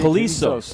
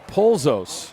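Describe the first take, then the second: First: The name is said with three syllables. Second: The name is said with two syllables. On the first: The speaker calls it right. "Now I got it" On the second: The speaker calls it wrong. "I wrote Polzos. That's why I'm saying it wrong"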